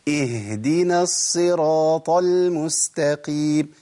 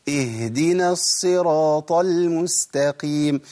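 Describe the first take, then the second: Both takes have the same delivery.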